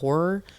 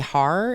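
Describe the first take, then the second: First: The word is said in a standard accent. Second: The word is said in a Baltimore accent. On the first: "instead of" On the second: "they say "har""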